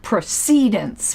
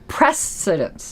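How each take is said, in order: First: The stress is on the second syllable. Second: The stress is on the first syllable. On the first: The speaker calls it wrong. "not precedence" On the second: The speaker calls it right. "the accent is on the first syllable"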